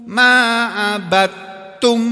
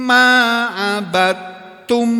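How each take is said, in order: Both takes have the same delivery.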